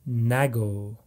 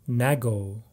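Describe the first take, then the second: Both takes have the same delivery.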